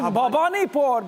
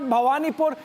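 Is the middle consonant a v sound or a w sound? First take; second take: v sound; w sound. First: The middle consonant is a v sound. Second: The middle consonant is a w sound. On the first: The speaker calls it right. "when you pronounce it Bhavanipur" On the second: The speaker calls it wrong. "it's not Bhawanipur"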